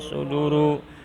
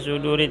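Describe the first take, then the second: First: The word ends with a u vowel. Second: The word ends with an i vowel. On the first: The speaker calls it wrong. "tidak boleh" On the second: The speaker calls it right. "suduri harus dibaca suduri"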